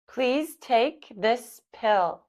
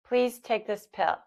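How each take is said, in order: First: It is spoken slowly. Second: It is spoken at normal speed. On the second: "at normal speed"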